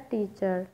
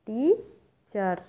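First: Said in the usual way. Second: teacher slowly split in two, टी stretched and rising, then चर; syllable by syllable. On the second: Shown as a demonstration. Teacher counts syllables for students, teacher split slowly in two. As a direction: break teacher into टी, pause, चर. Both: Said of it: "टू sounds create हुई हैं".

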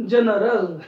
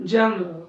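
First: जनरल with every vowel said, d͡ʒənərəl; जनरल with all three syllables clear; correct pronunciation. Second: जनरल clipped to d͡ʒanrə, no last vowel; wrong pronunciation. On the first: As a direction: say जनरल fully, d͡ʒə-nə-rəl. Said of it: "आपण म्हणणार जनरल". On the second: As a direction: swallow the ending of जनरल. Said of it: "आपण असं नाही म्हणणार त्याला". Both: Shown as a demonstration.

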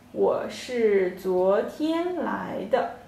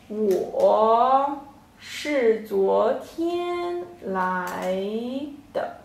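First: Said in the usual way. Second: 我是昨天来的 said very slowly, word by word with pauses; slow model sentence. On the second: Shown as a demonstration. Teacher slowly models 我是昨天来的 for the class. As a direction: spell 我是昨天来的 out slowly for learners. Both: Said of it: "So this whole sentence".

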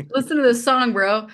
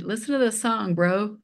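First: Higher and louder, hamming up the bro; playful emphatic bro. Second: Said in the usual way. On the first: Retold or imitated. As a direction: call it out to your son like a buddy. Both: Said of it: "We call, we call each other bro".

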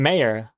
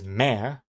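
First: Mayor said MAY-er, two syllables. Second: Mayor squeezed into one beat, like mare; one-syllable mayor. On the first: Streamer showing own version to chat, mayor in two syllables. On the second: Streamer quoting X Comics' pronunciation, mayor in one syllable. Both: Shown as a demonstration. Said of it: "Just, like, one syllable".

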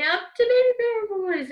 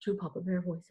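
First: Put-on Baby Bear voice. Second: Low, soft bottom-of-the-range voice; Papa Bear voice. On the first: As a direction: voice sliding right up high. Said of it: "all the way up to Baby Bear voice". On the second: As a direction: drop down to a big bear's pitch. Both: Shown as a demonstration.

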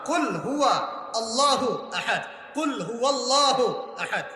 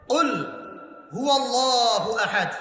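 First: কুল হুয়া আল্লাহু আহাদ, with হুয়া sounded as a separate word, slowly; slow Arabic recitation of কুল হুয়াল্লাহু আহাদ; correct recitation. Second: কুল হু আল্লাহু আহাদ recited slowly in Arabic style; slow Quranic recitation. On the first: Preacher corrects the verse for listeners, slow recitation. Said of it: "হুয়া আলাদা শব্দ". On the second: Preacher recites the verse to the congregation, slow and melodic. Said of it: "কুল মানে কি?". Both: Shown as a demonstration.

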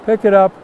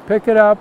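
Both takes have the same delivery.

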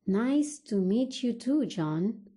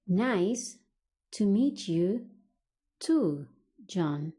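First: Said in the usual way. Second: Slow teaching delivery with pauses; broken into chunks. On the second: Shown as a demonstration. English teacher models replying to John, broken into chunks. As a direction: separate the words for learners to repeat.

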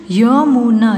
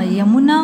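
First: Yamuna with each sound held; syllable by syllable. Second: Said in the usual way. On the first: Shown as a demonstration. (Yamuna को तोड़-तोड़ कर) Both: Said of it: "फिर ये सारे बोलने".

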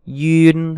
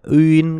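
First: "Duyên" drawn out as "yu-in"; long "Duyên" with a consonant-like y onset; duyên variant. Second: "Uyên" starting straight on the vowel, "ü-in"; rounded vowel onset on "Uyên", gliding to in; uyên variant. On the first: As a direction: open "Duyên" on a y glide, held level. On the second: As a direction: say "Uyên" with no consonant at the front. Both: Shown as a demonstration. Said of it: "Duyên hay là Uyên cũng được".

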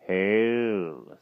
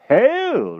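First: Long, drawn-out solemn greeting; mysterious. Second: Very high, loud eager greeting; anxious to impress. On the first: Magician greets the king, mysterious. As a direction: intone it mysteriously, without raising the voice. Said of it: "in a most mysterious manner". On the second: King returns magician's greeting, anxious to impress. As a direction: overdo it loudly to make a good impression. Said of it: "anxious to make a good impression". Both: A narrator's reading.

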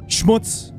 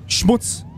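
First: Schmutz spat out on a voiceless breath. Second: Said in the usual way. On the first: Acted. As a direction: hiss Schmutz without voice. Repeats the insult, now breathed. (Schmutz tonlos gehaucht)

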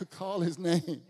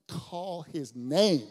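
First: Laughing slow repeat; stress on name. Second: Slow emphatic call his name; stress on name. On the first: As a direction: Call his name again slow, laughing, weight on name. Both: Shown as a demonstration.

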